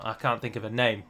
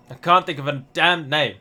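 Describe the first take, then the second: First: Said in the usual way. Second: "damn" punched louder in frustration; frustrated repeat, leaning hard on "damn"; exasperated stress on damn. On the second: Real, not acted. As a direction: hit "damn" hard, fed up.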